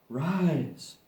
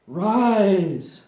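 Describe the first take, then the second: First: Said in the usual way. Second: Loud, pleading command to rise. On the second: Shown as a demonstration. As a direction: call it up like a spell.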